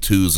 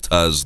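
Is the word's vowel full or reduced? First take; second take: full; reduced. First: The word has a full, clear vowel. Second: The word has a weak, reduced vowel. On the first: The read sounds formal. The speaker calls it right. "The twos need to be twos" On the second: The read sounds casual. The speaker calls it wrong. "instead of tus"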